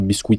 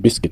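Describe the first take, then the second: First: The U is sounded in the word. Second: The U is silent in the word. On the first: The speaker calls it wrong. "on ne dit pas biscuit" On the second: The speaker calls it right. "on dit biscuit"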